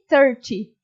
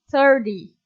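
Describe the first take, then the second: First: The middle t is a clear t sound. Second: The middle t sounds like a quick r. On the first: This is the more standard pronunciation. "thirty seja a pronúncia mais correta" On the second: This is how people commonly say it in the United States. "Como tipo um R meio quebrado"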